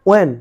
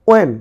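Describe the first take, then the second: Both takes have the same delivery.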